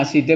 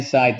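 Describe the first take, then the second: First: "side" sounded out as see-duh; read as spelled. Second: "side" with an eye vowel, one syllable; correct English reading. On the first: Teacher recalling the spelling rule, "side" as see-duh. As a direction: say "side" as written, final e voiced. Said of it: "side bacanya side". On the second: Teacher recalling the rule, "side" as syde. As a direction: say "side" as syde, silent final e. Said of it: "bacanya side". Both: Shown as a demonstration.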